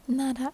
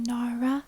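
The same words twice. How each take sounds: First: The R is a Japanese R sound. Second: The R is an English R sound. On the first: "but in Japanese it's na, ra" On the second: "in English we pronounce it Nara, Nara with the English R"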